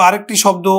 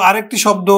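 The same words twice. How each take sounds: The two takes are said the same way.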